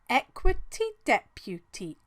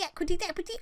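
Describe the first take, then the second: First: The phrase is said at a slow pace. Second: The phrase is said at a fast pace.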